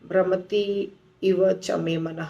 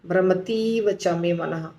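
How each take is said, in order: First: Two separate words, slower, with short i sounds. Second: Words merged into one, with a long i. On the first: "तो धीरे बोलना होगा, छोटा।" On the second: "वहाँ बड़ी इकार हो जाएगी।"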